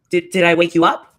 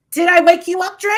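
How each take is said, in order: First: Low-pitched teasing question, rising at the end; low mock question. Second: Loud, high-pitched teasing question; high mock question. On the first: She mockingly asks Dre about waking, low voice. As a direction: start it low, then lift on "up". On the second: She mockingly asks Dre about waking, high loud voice. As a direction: push it high and loud, rising. Same question repeated much higher.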